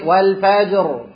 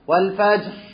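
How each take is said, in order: First: The final r is clearly voiced. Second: The final r is breathy and voiceless. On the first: The speaker calls it right. "لازم يكون عندي والفجر الراء فيها ايه؟" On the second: The speaker calls it wrong. "كده ما جبتش انا الجهر"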